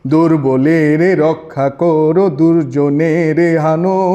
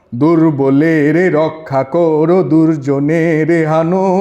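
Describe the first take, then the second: The two takes are said the same way.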